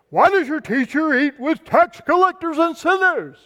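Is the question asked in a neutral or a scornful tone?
scornful. The question is asked in a scornful, accusing tone. The askers disapprove of the behavior. The speaker calls it right. "It's probably a little bit more like"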